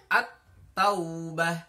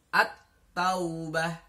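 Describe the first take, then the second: Both takes have the same delivery.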